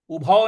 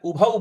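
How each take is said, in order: First: "उभौ" said as ubhao; wrong au vowel. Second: "उभौ" said as ubha-u; Sanskrit au diphthong. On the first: Teacher shows what to avoid, "उभौ" as ubhao. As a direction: end "उभौ" in a flattened Hindi ao. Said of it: "उभौ नहीं बोलना है". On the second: Teacher shows the correct Sanskrit, "उभौ" as ubha-u. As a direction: glide from a to u at the end of "उभौ". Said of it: "उभौ बोलना है". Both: Shown as a demonstration.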